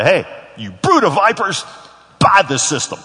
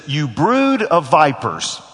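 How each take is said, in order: First: "Hey, you brood of vipers" higher and louder, chirpy salesman greeting; a salesman's friendly opener to a customer, hammed up; mock sales pitch. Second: "You brood of vipers" drawn out slowly, each word weighted, "brood" hit hardest; John the Baptist's slow rebuke to the Pharisees; slow condemnation. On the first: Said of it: "they didn't teach me ... say". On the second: Retold or imitated. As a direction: lay it down word by word. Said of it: "He sees them and he says".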